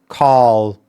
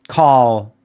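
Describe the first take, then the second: No difference in how they are said.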